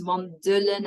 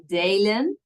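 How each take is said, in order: First: "wandelen" as VAN-duh-len, with a weak middle E; short middle vowel. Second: "wandelen" wrongly as van-DAY-len; wrong long vowel. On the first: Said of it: "it is kind of an exception". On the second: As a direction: stretch the middle of "wandelen" into "day". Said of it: "and not wandelen". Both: Shown as a demonstration.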